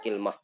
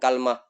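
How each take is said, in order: First: The k has 'i' and no vowel follows l. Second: The k has 'a' and no vowel follows l. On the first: "kasruha ma'a sukunil lami" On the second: "fathul kafi ... ma'a sukunil lami"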